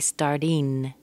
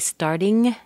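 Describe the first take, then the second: First: The ending is a plain n sound. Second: The ending is a plain ng sound. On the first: "some people say starting as an N" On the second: "some people say starting, ng-ng-ng"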